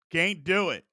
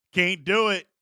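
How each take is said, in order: Both takes have the same delivery.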